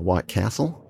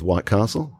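First: It is said in an American accent. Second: It is said in a non-American accent.

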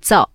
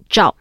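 First: It begins with a flat 'z' sound, no h. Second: It begins with a retroflex 'zh' sound. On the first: The speaker calls it wrong. "You can actually get away with" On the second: The speaker calls it right. "the proper pronunciation is"

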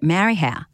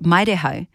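First: The name is said in its common local form. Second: The name is said with its intended vowel sounds. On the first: The speaker calls it wrong. "but everyone called it Marihau" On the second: The speaker calls it right. "it's called Maireho ... Maireho should be how we'd say it"

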